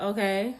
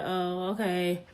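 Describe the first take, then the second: First: "Okay" with the tune rising at the end; questioning okay. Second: "Oh, okay" slow, with a long "Oh" falling into "okay"; drawn-out oh okay. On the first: Hearing he has a girlfriend, a rising "Okay". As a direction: toss off "Okay" as a light question. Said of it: "if I said it like that". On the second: Realizing the guy has a girlfriend, slow drawn "Oh, okay". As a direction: stretch out "Oh, okay" slowly and a little softer. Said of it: "or I was like". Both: Retold or imitated.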